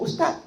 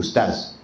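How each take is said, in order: First: Ustaz said as ustat, final z turned to t; wrong ustaz, ending in a hard t; sloppy ustaz. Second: Ustaz with a crisp final z; ustaz, final z buzzed clearly. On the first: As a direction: drop the z so ustaz sounds like ustat. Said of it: "Kita jangan sebut ustaz". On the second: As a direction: say ustaz ending sharply on z, not t. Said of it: "macam saya sebut ustaz". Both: Shown as a demonstration.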